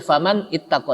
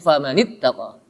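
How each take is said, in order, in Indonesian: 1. Kedua kata itu diucapkan terpisah, ada jeda. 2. Kedua kata itu diucapkan menyambung tanpa jeda. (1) "tidak boleh dibaca faman ittaqa" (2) "tapi famanittaqa"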